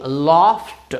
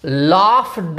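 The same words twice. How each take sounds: First: लाफ्ड ending in t, laft; correct t ending. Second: लाफ्ड with a d at the end; wrong voiced ending. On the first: Teacher gives the correct ending. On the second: Teacher shows the wrong ending. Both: Shown as a demonstration. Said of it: "लाफ्ड नहीं".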